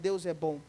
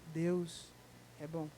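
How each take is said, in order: First: It is said casually, without real conviction. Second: It is said with heartfelt, sincere conviction.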